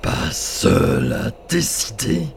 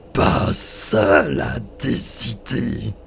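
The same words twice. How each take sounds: First: Slow, louder, rising on décider; mocking giant spirit. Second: Slow, louder, falling hard on seul; mocking giant spirit. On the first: Spirit mocking the boy, slow with décider rising. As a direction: question it slowly with a sneer. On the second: Spirit repeating the boy's words, slow with seul stressed falling. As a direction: repeat it slower, leaning on seul.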